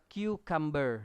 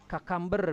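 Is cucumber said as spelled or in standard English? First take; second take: standard English; as spelled. First: The word uses the standard English pronunciation. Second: The word is sounded out as it is spelled. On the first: The speaker calls it right. "cara cara pengucapannya adalah cucumber" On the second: The speaker calls it wrong. "Ada yang baca cucumber misalnya"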